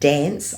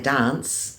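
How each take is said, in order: First: The word has an American-style short vowel. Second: The word has a New Zealand-style long vowel. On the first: "I don't um, Americanize my voice at all, and so I don't dance" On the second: "I'm a Kiwi and I sing in Kiwi"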